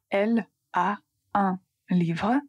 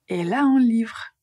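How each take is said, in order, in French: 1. Les mots sont séparés par de petites pauses. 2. Les mots s'enchaînent sans aucune pause. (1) "au lieu de dire" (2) "on dit"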